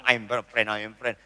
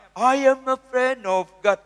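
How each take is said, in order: First: Softer, scornful "I am a friend"; mocking repetition. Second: Slow, crooned "I am a friend of God"; mock sung worship line. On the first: Preacher scorning sinners who claim friendship with God, quiet scorn. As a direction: throw the words back with contempt. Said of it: "Janganlah ngomong". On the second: Preacher mocking casual sinners who sing "I am a friend of God", slow crooned. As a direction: sing it smugly like a praise song. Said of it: "nyanyinya apa?".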